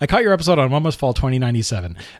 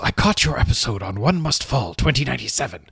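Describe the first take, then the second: First: It is read in his own voice. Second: It is read imitating Trolls's voice.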